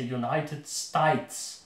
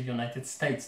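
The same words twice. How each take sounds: First: It is said with an Australian accent. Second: It is said without an Australian accent. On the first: "they say United States" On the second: "they don't say United States"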